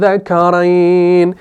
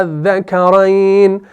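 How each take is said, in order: First: अज़्ज़करैन with the opening vowel lengthened, said slowly; correct reading. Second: अज़्ज़करैन said slowly without the long vowel; wrong reading. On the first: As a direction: recite अज़्ज़करैन the proper way, holding the mad. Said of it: "आप इसको पढ़ेंगे". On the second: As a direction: read अज़्ज़करैन clipped, as the mistaken form. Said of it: "आप इसको अज़्ज़करैन नहीं पढ़ेंगे". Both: Shown as a demonstration.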